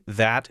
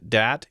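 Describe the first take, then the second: First: The word begins with a soft th sound. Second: The word begins with a hard d sound.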